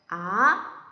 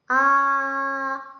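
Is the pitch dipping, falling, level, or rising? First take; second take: rising; level. First: The pitch rises from low to high. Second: The pitch stays high and level. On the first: "아래서부터 위로 올라가는 소리예요" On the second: "아 하면 그 일성이고요"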